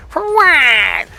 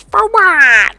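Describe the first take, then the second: First: High, loud, grating scorn; mocking wife's irritated reply; irritating wife voice. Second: Much higher, louder, scornful; mocking wife's irritated reply; bitchy snap. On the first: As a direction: sneer it as annoyingly as possible. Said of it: "The most irritating voice you could s-, imagine". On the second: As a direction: bite it off like a nagging wife. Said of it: "In this just bitchy, cunty".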